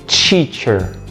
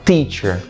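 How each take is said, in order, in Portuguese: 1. A palavra começa com um som diferente de t. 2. A palavra começa com o t simples. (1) "e não teacher" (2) "A gente usa o som do T assim, ó, t"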